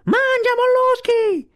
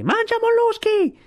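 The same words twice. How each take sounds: First: Strillo acutissimo e più forte, lento e tirato; grido di scherno prolungato. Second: Strillo di scherno molto acuto e forte; grido di scherno. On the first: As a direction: allunga lo scherno con tutto il fiato. (Kotick deride Sivic: strillo lento e acutissimo) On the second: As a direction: strillo beffardo più forte che può. (Kotick deride Sivic: grido acutissimo) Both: Acted. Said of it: "gridò più forte che poté".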